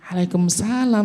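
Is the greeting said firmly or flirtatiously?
flirtatiously. It is said in a coy, pampered voice. Affection is being shown to the listener. The speaker calls it wrong. "suara centil dan manja seperti ini"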